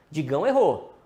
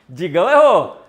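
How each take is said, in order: First: Said in the usual way. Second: Loud laughing jab; laughing tease. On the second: Real, not acted. Host laughing at viewer Digão's wrong answer, teasing loudly. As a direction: laugh it out at his mistake.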